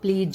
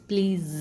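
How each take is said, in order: First: The word ends with a 'j' sound. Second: The word ends with a 'z' sound. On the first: The speaker calls it wrong. "प्लीज नहीं" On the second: The speaker calls it right. "It's प्लीज। ज की sound आती है इसके अंदर"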